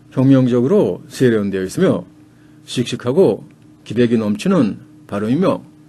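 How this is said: The sentence is chopped into five short phrases. It sounds combative and agitating. "이 토막을 한 다섯 개 정도로 쳐요"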